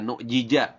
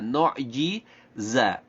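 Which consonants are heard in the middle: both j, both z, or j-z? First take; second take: both j; j-z. First: Both middle consonants are sounded as j. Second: A j sound is followed by a z sound. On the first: The speaker calls it wrong. "Jangan dibaca nu jija" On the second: The speaker calls it right. "dua huruf yang makhrajnya berbeda"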